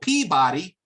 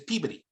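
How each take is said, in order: First: The word is said with full, even syllables. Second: The word is said clipped, in a Boston accent. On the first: "It's spelled Peabody" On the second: "but it's Peabody"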